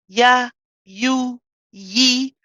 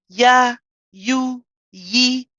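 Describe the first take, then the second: The two takes are said the same way.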